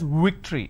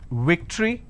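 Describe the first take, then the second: First: The word begins with a w sound. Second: The word begins with a v sound. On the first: The speaker calls it wrong. "They pronounce this as victory" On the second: The speaker calls it right. "I have the word which is victory"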